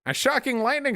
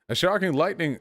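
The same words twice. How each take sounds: First: It is said in a put-on announcer-style voice. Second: It is said in an ordinary speaking voice.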